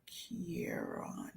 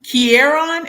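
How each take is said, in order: First: Whispered name, trying it out; soft whispered try. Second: Higher, louder asking tone; louder questioning try. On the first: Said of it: "I'm so sorry if I'm saying your name". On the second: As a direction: ask if the name is right. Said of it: "Am I saying it right?". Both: Shown as a demonstration.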